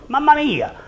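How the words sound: It is said in a surprised tone. Look what is happening here. "I could say Mamma Mia if I'm surprised"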